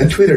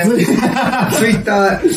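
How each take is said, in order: First: It is said with English-style pronunciation. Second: It is said with Japanese katakana-style pronunciation.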